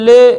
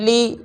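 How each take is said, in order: First: The vowel is an open ay sound. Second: The vowel is a pure, long ee sound. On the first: The speaker calls it wrong. "ये तरीका ठीक नहीं है" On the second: The speaker calls it right. "ज़ेर की सही अदा होंठों को नीचे की तरफ माइल करके या मारूफ की बू देकर"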